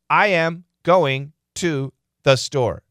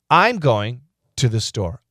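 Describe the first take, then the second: First: Each word is said separately, without linking. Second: The words run together in smooth chunks. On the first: The speaker calls it wrong. "Is that a good way to say it? ... No" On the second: The speaker calls it right. "The natural grouping that Americans are going to use is this"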